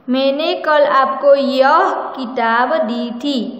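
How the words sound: The word यह is stressed.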